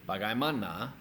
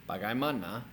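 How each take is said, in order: The two takes are said the same way.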